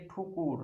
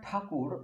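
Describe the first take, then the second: First: ঠুকুর said with u in place of the first a sound; distorted pronunciation. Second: Said in the usual way. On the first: Shown as a demonstration. Teacher showing pupils the distorted form ঠুকুর. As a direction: say ঠুকুর as a careless rhyme-echo of ঠাকুর. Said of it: "বিকৃত উচ্চারণ হচ্ছে ঠুকুর". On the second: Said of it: "এই ঠাকুর কথাটির বিকৃত উচ্চারণ".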